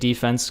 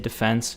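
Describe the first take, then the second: First: It is said the American way. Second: It is said the British way. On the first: "It's so American" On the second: "I'm in the U K and they say defense"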